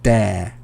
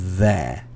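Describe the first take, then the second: First: The word begins with a hard 'd' sound. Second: The word begins with a soft 'th' sound. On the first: The speaker calls it wrong. "I was hearing a lot of duh and dare instead of the and there" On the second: The speaker calls it right. "instead of the and there"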